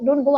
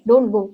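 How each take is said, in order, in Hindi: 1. यह मीठे, लाड़ वाले लहजे में कहा गया है। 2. यह सादे, गंभीर लहजे में कहा गया है। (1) "इतना स्वीटली नहीं बोलेंगे" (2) "बस जेन्युइन केयर दिखाएंगे"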